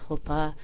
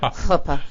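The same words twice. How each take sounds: First: The first sound is soft, with little throat friction. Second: The first sound is a strong, raspy throat sound. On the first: "Did I pronounce that right?" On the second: "Maybe you can help me get my huh back"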